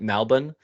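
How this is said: It is said in an Australian accent.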